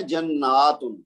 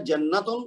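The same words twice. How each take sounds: First: Slow "جناتن" with long naa before tun; plural form. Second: "جنتن" with short na before tun; singular form. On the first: Teacher contrasts plural with singular, drawn-out naa. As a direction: stretch the middle of "جناتن". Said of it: "اس کی جمع ہے". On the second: Teacher contrasts singular with plural, short na. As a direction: say "جنتن" with no stretch on na. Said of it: "ایک ہوتا ہے". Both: Shown as a demonstration.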